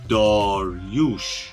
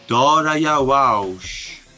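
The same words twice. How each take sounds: First: The name is said as Dariush. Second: The name is said as Darayavaush. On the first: This is how the name is said today. "تلفظ امروزیش داریوش هستش" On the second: This is how the name was probably said in ancient times. "در اون زمان چطوری تلفظ می شده؟ احتمالاً داریوش تلفظ می شده"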